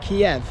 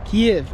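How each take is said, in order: First: The city name gets its Western pronunciation. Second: The city name gets its Ukrainian pronunciation. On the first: This is the habitual form used by outsiders. The speaker calls it wrong. "as a Westerner, I've always known this place as Kiev" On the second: This is how local people prefer the name said. The speaker calls it right. "it's Kiev, not Kiev. ... It's the right pronunciation"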